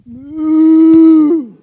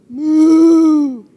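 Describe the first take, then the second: First: Long, loud drawn-out moo; cow moo. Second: Long, loud drawn-out moo again; cow moo. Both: Shown as a demonstration. Leading the audience in being cows, loud moo. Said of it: "Now we're gonna be cows".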